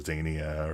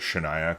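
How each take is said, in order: First: The name begins with a z sound. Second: The name begins with an sh sound. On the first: This is the likely intended pronunciation. "probably intended to be pronounced like Zanaya or Zania" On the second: This reads the X as in Chinese, for fun. "I just pronounced it Shania"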